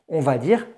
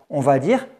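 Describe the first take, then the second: Both takes have the same delivery.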